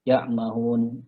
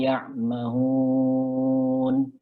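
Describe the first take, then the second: First: The final vowel is cut short. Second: The final vowel is drawn out long. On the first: The speaker calls it wrong. "jangan buru-buru, jangan ya mahun" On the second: The speaker calls it right. "tapi dipanjangin lagi"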